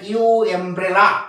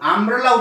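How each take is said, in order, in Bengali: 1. শব্দটি একটি আলাদা 'you' ধ্বনি দিয়ে শুরু হয়। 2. শব্দটি একটি ছোট 'uh' ধ্বনি দিয়ে শুরু হয়। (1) "এরকম বলে না ইউ এমব্রেলা" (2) "আমব্রেলা উচ্চারণ করি তখন এইভাবে উচ্চারণ"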